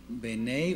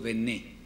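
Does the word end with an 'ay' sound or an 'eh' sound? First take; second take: ay; eh. First: The word ends with an 'ay' diphthong. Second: The word ends with a plain 'eh' vowel. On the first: "Algunos lo pronunciarán así" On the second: "otros Bené"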